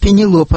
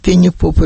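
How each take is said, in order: First: The third syllable begins with an L sound. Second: The third syllable begins with a P sound. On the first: This is the proper name. The speaker calls it right. "Я говорю, Пенелопа" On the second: A student mangled the name. The speaker calls it wrong. "Пенипопа один мне говорит"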